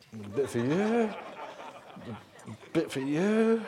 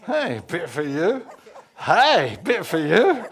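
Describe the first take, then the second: First: Slow, drawn-out, unsure handout; tentative offering. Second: Growing excited amazement. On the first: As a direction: offer it warily, testing whether it works. Peter hesitantly hands out food. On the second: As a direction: call it out in mounting delight. Peter amazed as food multiplies. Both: Acted.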